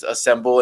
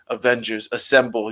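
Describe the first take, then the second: First: Said in the usual way. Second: Lightly voiced gravelly Captain America; a hint of a low, gravelly hero. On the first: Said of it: "where he just says". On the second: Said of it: "nice low gravelly voice".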